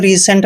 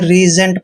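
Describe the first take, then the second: First: The middle consonant is an s sound. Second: The middle consonant is a z sound. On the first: The speaker calls it wrong. "जिसको हमने रिसेंट नहीं पढ़ना है" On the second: The speaker calls it right. "रीजेंट पढ़ना है"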